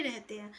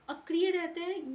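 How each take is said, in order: First: Said in the usual way. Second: अक्रिय said higher and louder, falling at the end; stress on अक्रिय. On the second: Shown as a demonstration. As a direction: lean hard on अक्रिय to flag the wrong statement. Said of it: "ये statement गलत है".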